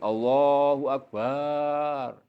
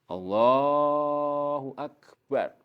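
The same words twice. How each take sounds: First: The vowel after the b is drawn out long. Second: The vowel after the b is short. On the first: The speaker calls it wrong. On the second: The speaker calls it right.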